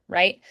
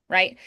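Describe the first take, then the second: Both takes have the same delivery.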